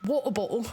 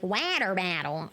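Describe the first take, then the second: First: British accent. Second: "Water battle" with flapped t's, "wanner bannel"; mock overcorrected American accent. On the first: Shown as a demonstration. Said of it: "saying things in British accents". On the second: Streamer mimics a Brit overcorrecting to American, mock "Water battle". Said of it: "water bottle in an American accent".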